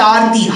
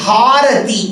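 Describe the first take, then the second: First: The word begins directly with a vowel. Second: The word begins with an h sound. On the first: The word means causing distress. The speaker calls it wrong. "it's not Aarti" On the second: The word names the lamp-waving gesture. The speaker calls it right. "वो हा होती है"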